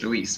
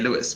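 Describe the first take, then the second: First: The name is said the Spanish way, as Luis. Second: The name is said the English way, as Lewis. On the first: The speaker calls it right. "it's Luis because he has a Spanish origin" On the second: The speaker calls it wrong. "I would naturally just say Lewis"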